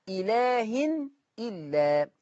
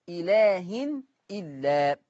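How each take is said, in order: Both takes have the same delivery.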